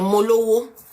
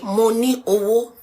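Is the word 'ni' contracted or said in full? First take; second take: contracted; full. First: The word ni is reduced to an l. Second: The word ni is said in full. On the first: "you actually say mo lowo" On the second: "when you say mo ni owo"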